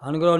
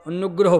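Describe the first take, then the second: First: The n sound is short and single. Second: The n sound is held and doubled. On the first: The speaker calls it wrong. "ਅਨੁਗ੍ਰਹ ਨਹੀਂ ਪੜ੍ਹਨਾ" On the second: The speaker calls it right. "ਅਨੁਗ੍ਰਹ ਪੜ੍ਹਨਾ"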